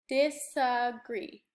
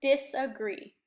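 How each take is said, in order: First: Disagree said slowly with three even beats, dis-a-gree. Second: Said in the usual way. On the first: Shown as a demonstration. Teacher showing the class the beats in disagree, slow and even. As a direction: tap out each beat of disagree. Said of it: "Three of them". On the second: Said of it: "watch me read disagree".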